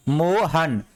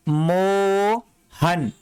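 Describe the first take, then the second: First: Said in the usual way. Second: Mohan stretched very slowly, syllable by syllable; drawn out. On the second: Shown as a demonstration. Teacher stretching Mohan slowly so students hear each sound. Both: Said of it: "यहां पे आ की sound आ रहा है तो मो हो गया".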